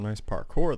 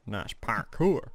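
First: Said in the usual way. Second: "parkour" drawn out as "par-KOOR"; playful pronunciation. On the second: Pretend. Gamer repeating to himself about a climb, "parkour" playfully said "par-koor". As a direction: stretch "parkour" slowly, with an oo in the last syllable.

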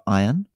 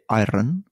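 First: Said in the usual way. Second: "iron" with the R sounded; father's Scottish pronunciation. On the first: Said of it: "instead of iron". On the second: Retold or imitated. Son imitating his father's word, "iron" with a Scottish R. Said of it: "he had the hint of a Scottish accent".

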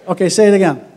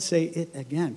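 First: Louder, higher call for a repeat; rally the congregation to repeat it; loud call to the crowd. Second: A teasing hushed echo; soft mock repeat. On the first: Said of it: "I said, "Say it again". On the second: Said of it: "Come on, no, I'm kidding". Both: Shown as a demonstration.

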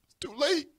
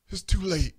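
First: High-pitched verdict with a rising end; high, lilting divine refusal; God's refusal. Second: TOO LATE falling, closed off; grave finality. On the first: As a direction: pronounce it high, lifting on LATE. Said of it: "God says". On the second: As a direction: let LATE drop with finality. Restates God's verdict with finality. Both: Retold or imitated.

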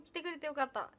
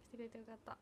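First: Said in the usual way. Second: 「来てくれてよかった」 repeated much softer, almost to herself; soft echo. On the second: Real, not acted. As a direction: echo 「来てくれてよかった」 under your breath. Repeats thanks softly. (「来てくれてよかった」を小声で繰り返す)

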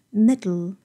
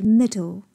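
First: "middle" with d released straight into l; no vowel in the end of "middle", tongue sides release; lateral release. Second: "middle" with a clearly released d, like "mid-dol"; full middle. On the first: Teacher shows native technique, "middle" with lateral release. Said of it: "就是舌侧除阻". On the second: Teacher gives the basic reading, "middle" with full "dol". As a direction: give "middle" a full second syllable. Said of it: "本身比较饱满的念法是middle". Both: Shown as a demonstration.

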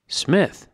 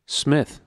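First: Much higher, sharp rising "Smith?"; surprised question. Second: Said in the usual way. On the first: A narrator's reading. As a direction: echo "Smith?" in disbelief. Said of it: "said the woman". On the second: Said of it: "said Winston".

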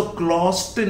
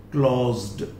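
First: क्लोज्ड said wrongly as "klost"; wrong t ending. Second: क्लोज्ड said as "klozd"; final d sound. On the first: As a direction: end क्लोज्ड on a voiceless t. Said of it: "नहीं कह सकते आप". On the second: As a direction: end क्लोज्ड on a voiced d. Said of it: "pronunciation ड होगा". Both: Shown as a demonstration.

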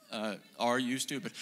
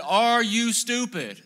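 First: Calm retort. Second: Loud, slow, high shout with a laugh; yelled insult. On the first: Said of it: "And I would say". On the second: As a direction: bellow it up at the bus window. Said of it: "and I said". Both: Retold or imitated.

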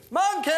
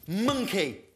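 First: Calling Monkey at full voice. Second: Said in the usual way. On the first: Real, not acted. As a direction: shout "Monkey!" across the trees. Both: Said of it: "I know".

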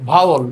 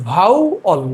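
First: Said in the usual way. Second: "vowel" as bhau, then ol; split into syllables. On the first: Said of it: "এটার pronunciation হচ্ছে কি". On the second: Shown as a demonstration. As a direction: break "vowel" in two with a short gap. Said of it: "এটার pronunciation হচ্ছে". ("Vowel" দুই সিলেবলে ভেঙে)

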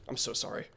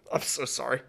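First: Breathy whispered sorry; whispered apology. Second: Soft laugh through the sorry; laughing apology. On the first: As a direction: sigh it out in a whisper. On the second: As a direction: apologize while laughing softly. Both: Real, not acted. Embarrassed apology after fumbling name.

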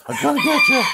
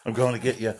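First: Much higher, louder sing-song threat; playful taunt. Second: Said in the usual way. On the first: Pretend. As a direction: tease the rooster in a squeaky voice. Teasing the rooster, repeated.

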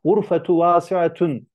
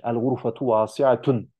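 First: High, slow "gurfetu vasiatun"; contrast demo. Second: Said in the usual way. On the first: Shown as a demonstration. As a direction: say "gurfetu vasiatun" slowly and clearly. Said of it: "dersen çöptür". ("gurfetu vasiatun" yavaş ve net, yüksek perdeden) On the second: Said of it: "Gurfe, oda".

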